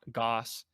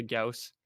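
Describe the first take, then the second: First: Goss rhyming with "boss"; vowel like "aw". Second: Gauss rhyming with "house"; vowel like "ow". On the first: Citing the disliked form, Goss said with an "aw". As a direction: say Goss as "GAWSS". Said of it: "people were saying". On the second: Citing the preferred form, Gauss said with an "ow". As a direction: say Gauss as "GOWSS". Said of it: "as opposed to Gauss". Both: Shown as a demonstration.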